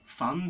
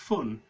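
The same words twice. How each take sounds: First: The vowel is an open, unrounded 'uh' sound. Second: The vowel is the rounded vowel of 'put'. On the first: "I use a completely different vowel" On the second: "so fun becomes fun"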